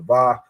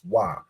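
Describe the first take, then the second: First: The word begins with a V sound. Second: The word begins with a W sound. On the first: This is a later change made to fit another dialect. The speaker calls it wrong. "now pronounced with a V sound" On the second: This is the original pronunciation of the letter. The speaker calls it right. "originally pronounced as a W"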